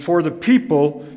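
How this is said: The stress falls on the word people. The people themselves are highlighted. "Lincoln emphasized not a preposition, but the people"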